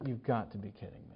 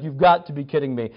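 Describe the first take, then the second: First: Very soft, low aside; stunned disbelief. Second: Mildly exasperated, at full voice; retold exasperation. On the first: Retold or imitated. Retelling his look at the friend skipping the movie, hushed disbelief. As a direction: imitate speechless disbelief under the breath. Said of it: "I just looked at him like". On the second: Retelling his anger at the friend, mildly exasperated. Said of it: "I was so mad at him".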